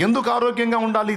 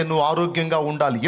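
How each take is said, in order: First: High-pitched challenge from the pulpit; raised rhetorical question. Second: Said in the usual way. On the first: Shown as a demonstration. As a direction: fire the question out high to the congregation.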